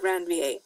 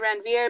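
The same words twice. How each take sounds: First: The name is pronounced unlike its English spelling. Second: The name is pronounced close to its English spelling. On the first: The speaker calls it right. "Ranvier is the correct pronunciation" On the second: The speaker calls it wrong. "I always say Ranvier because that helps me spell it"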